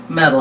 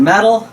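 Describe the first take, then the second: First: Said in the usual way. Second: Metal punched higher and louder; emphatic metal. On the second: Shown as a demonstration. Teacher stressing Metal to students, punched higher and louder. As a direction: hit Metal hard as the big warning. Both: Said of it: "this is the big one".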